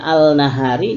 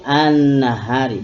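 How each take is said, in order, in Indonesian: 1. Bunyi L diucapkan dengan jelas sebelum N. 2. Bunyi L melebur menjadi bunyi N yang ganda. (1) "Yang tadinya al nahari" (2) "jadi an nahari"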